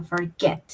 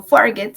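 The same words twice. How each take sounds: First: Forget stressed at the end, for-GET; the correct for-GET stress; correct stress on the last syllable. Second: Forget stressed on the first syllable, FOR-get; the mistaken FOR-get stress; wrong stress. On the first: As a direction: put the weight on get in forget. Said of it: "sino forget". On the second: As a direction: lean on FOR in forget, not get. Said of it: "Yo no digo forget". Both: Shown as a demonstration.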